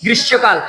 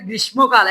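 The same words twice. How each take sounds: First: গ্রীষ্মকাল said as "grissho-kal", m silent; গ্রীষ্মকাল with a long shsh in place of shm; corrected pronunciation. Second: গ্রীষ্মকাল said as "grismo-kal", with an m; গ্রীষ্মকাল read as spelt, m pronounced; common mispronunciation. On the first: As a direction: double the sh and drop the m in গ্রীষ্মকাল. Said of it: "এটা হবে কি?". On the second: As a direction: sound the m in the middle of গ্রীষ্মকাল. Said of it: "এটা অনেকে বলে গ্রীষ্মকাল". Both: Shown as a demonstration.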